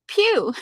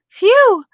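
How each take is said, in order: First: The word begins with a P sound. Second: The word begins with an F sound. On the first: "I say pew, P H E W" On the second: "he says, "Phew." ... with a "f" sound"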